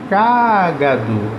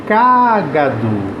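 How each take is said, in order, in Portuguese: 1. A tônica está na primeira sílaba. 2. A tônica está na primeira sílaba.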